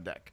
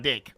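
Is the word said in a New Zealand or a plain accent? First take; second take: plain; New Zealand. First: The word is said in a plain accent. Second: The word is said in a New Zealand accent.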